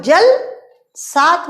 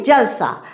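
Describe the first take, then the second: First: जल सा split, a short gap after जल; pause between syllables. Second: Said in the usual way. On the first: Shown as a demonstration. Teacher showing pupils how a pause changes meaning, जल and सा kept apart. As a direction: say जल, stop briefly, then सा. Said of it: "थोड़ा विराम दे दिया". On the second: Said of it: "जलसा को एक साथ बोला".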